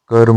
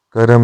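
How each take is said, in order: First: कर्म as "karm"; correct form. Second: कर्म split as "karam"; incorrect form. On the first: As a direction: join r and m in कर्म. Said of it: "होता है". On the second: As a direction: put a vowel before m in कर्म. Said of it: "नहीं होता". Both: Shown as a demonstration.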